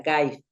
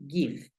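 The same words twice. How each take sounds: First: "give" said like "gaiv", with ai; wrong rule-based reading. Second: "give" with a short i, as "guiv"; correct English. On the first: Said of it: "sonaría give". ("give" mal dicho como "gaiv") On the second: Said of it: "Pero no, suena give". ("give" correcto, con i corta, "guiv") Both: Shown as a demonstration.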